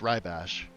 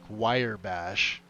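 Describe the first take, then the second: First: The first syllable sounds like rye. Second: The first syllable sounds like wire. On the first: The speaker calls it right. "It's it's rye bash" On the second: The speaker calls it wrong. "I've heard people call it like wire bash"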